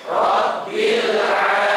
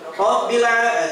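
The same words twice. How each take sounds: First: It is said calmly, with a long flowing l. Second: It is said quickly, with a clipped l. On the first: The speaker calls it right. "sampai benar-benar mengalir" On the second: The speaker calls it wrong.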